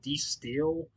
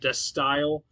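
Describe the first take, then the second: First: The second word has an 'ee' vowel. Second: The second word has an 'eye' vowel. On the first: The speaker calls it wrong. "I think I used to call it D Steel" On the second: The speaker calls it right. "The Style is how you is the pronunciation of this album"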